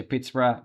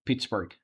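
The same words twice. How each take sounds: First: Pittsburgh ending in "bruh"; British-style pronunciation. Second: Pittsburgh ending in a hard "burg"; Pittsburgh as "Pitts-burg", corrected to the American way; American-style pronunciation. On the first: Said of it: "if you pronounce it like British". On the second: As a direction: say Pittsburgh with the final g. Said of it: "if you pronounce it like American". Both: Shown as a demonstration.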